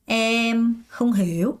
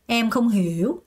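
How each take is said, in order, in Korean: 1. 천천히, 한 음절씩 말해요. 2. 빠르게 한 번에 말해요. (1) "맨 처음에 이렇게 하다가" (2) "빨리 해서 그냥 한 번에 갈 수도 있어요"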